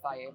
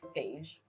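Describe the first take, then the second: First: The word ends in a plain vowel sound. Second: The word ends in a 'j' sound. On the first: The speaker calls it right. "It's called Faye" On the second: The speaker calls it wrong. "it's spelled like Phage"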